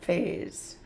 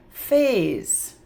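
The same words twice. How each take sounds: First: Whispered. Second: Said in the usual way. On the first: Shown as a demonstration. Teacher repeating the word softly for kids: whispered Phase. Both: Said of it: "sneaky Z sound".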